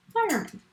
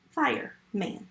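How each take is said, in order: First: Fireman lifted much higher with a falling tune; high, bright repeat. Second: Said in the usual way. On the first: Shown as a demonstration. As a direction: sing Fireman up high to celebrate it.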